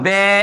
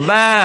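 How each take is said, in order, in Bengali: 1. স্বরটি e-এর দিকে ঝোঁকা। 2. স্বরটি a ও e-এর মাঝামাঝি। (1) "আবার বে এমনও করা যাবে না" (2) "মধ্যবর্তী অবস্থা, তাকলিল সোগরা"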